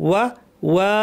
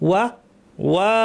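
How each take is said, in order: Both takes have the same delivery.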